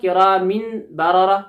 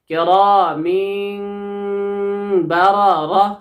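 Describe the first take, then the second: First: A plain n sound comes before the b. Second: A nasalized m sound comes before the b. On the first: The speaker calls it wrong. "किरा मिन नहीं होगा, ... ये सरासर गलत है" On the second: The speaker calls it right. "हमें मीम साकिन को पढ़ना होगा"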